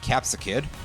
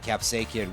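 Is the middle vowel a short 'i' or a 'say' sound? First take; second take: short i; say. First: The middle vowel is a short 'i' sound. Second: The middle vowel sounds like 'say'. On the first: It cuts off before the letter involved in the origin word. "I'm pronouncing it that way" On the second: It fits the origin word of the name more closely. "which would fit in more with the capsaicin origin of the name"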